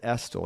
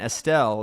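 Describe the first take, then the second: First: The name is said in a plain, rustic way. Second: The name is said in a refined, elevated way. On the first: It is the family's own everyday way of saying it. "I pronounce it Estel" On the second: It is a fancier way of saying it. "because it sounds, a little elevated"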